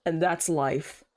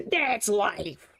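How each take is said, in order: First: Said in the usual way. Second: Drawn-out, hammy catchphrase; hammed-up exclamation. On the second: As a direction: play it up as a silly proclamation. Repeats it as exaggerated exclamation.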